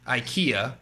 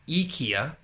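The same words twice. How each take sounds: First: It is said with the common English pronunciation. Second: It is said with the Swedish pronunciation. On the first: "everyone knows uh" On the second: "which is actually so Swedish. It's pronounced as"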